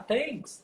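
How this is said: It is said with Brazilian-style sounds. The listeners are Brazilians, so it is easier to understand. "eu já começava a brasileirar aquela coisa"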